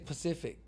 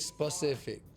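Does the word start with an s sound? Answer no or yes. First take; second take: no; yes. First: The word starts without the s sound. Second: The word starts with the s sound. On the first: "I still say Pacific" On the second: "I don't say specific"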